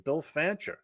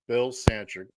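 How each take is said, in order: First: Fancher said with an F sound; Fancher, carefully starting with F; corrected name. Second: Sancher said with an S sound; Sancher, mistakenly starting with S; wrong name slip. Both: Real, not acted. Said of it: "Why did I say Sancher?".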